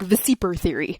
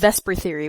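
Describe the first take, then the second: First: The acronym is said in three syllables. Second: The acronym is said in two syllables. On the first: This is how the spelling looks. "to me it looks like Vesiper theory" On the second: This is the usual way to say it. "why we pronounce it that way"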